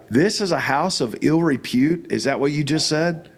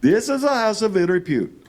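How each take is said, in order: First: Said in the usual way. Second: Put-on heavy Indian English accent, higher, stiff and formal. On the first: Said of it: "And I said". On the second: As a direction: repeat the line as the Indian driver in a thick Indian accent. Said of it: "says in a very heavy Indian accent".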